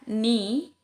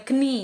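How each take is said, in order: First: The word starts with an N sound. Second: The word starts with a K sound. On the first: The speaker calls it right. "salah satu contohnya adalah" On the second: The speaker calls it wrong.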